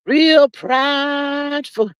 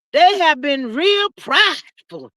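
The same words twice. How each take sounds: First: "Real prideful" repeated slow and heavy; slow drawn-out repeat. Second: Said in the usual way. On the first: Shown as a demonstration. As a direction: drag "Real prideful" out very slowly.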